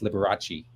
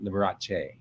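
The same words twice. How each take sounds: First: The name is said with an American pronunciation. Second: The name is said with an Italian pronunciation. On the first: This is the familiar adapted form of the name. "the Americanized [name]" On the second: This is how the family's Italian name would sound. "You would have pronounced it Liberace"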